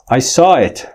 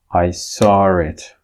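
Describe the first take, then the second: First: Saw and it join without an r sound. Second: An r sound links saw and it.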